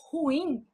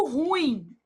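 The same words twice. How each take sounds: First: "ruim" stressed on the IM, ru-IM; correct stress. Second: "ruim" stressed on the U, RÚ-im; wrong stress. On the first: Shown as a demonstration. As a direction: say "ruim" as an oxytone. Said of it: "ela é uma oxítona". ("ruim" certo, com a tônica no IM) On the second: Retold or imitated. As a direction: say "ruim" as a paroxytone. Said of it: "pronunciando a palavra como paroxítona". ("ruim" errado, com a tônica no RU)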